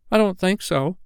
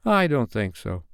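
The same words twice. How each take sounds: First: Put-on high-pitched little boy's reply; first twin. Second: Put-on mildly mournful boy's answer; a touch of regret in a small voice. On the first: First twin copying the others' clever answer, high boy voice. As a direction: pipe it up like a small boy. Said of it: "said the first twin". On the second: Slightly wishing things had been otherwise, mildly mournful. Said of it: "who said mournfully".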